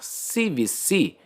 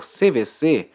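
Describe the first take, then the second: First: C V C said as "see vee see"; English letter names. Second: C V C said as "sê vê sê"; Portuguese letter names. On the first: Teacher naming the popular C V C rule, English letter names. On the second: Teacher restating the C V C rule for verbs, Portuguese letter names. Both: Shown as a demonstration.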